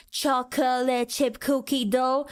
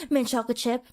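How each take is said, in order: First: "Chocolate chip cookie dough" dragged out slowly; mock slow customers stretching each syllable of "Chocolate chip cookie dough"; laboured, slow order. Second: "Mint chocolate chip" in one short go; quick, simple order. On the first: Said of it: "a long line of people saying". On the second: Acted. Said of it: "you only said".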